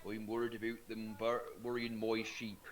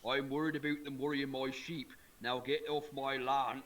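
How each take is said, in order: First: Grumpy English farmer. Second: Farmer Palmer voice. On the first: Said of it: "they'd be more like". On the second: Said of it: "he keeps saying". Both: Retold or imitated.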